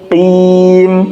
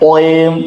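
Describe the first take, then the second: First: The q sound is only lightly heavy. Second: The q sound is fully heavy and rounded. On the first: The speaker calls it right. "tafkhimnya tidak sempurna atau berkurang" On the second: The speaker calls it wrong. "bukan oim"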